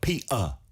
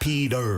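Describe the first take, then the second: First: It is said in working-class British, t swallowed. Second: It is said in an American accent, t flapped. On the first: "서민 영국식 영어는 그 티를 먹어요" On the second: "미국식으로 하면"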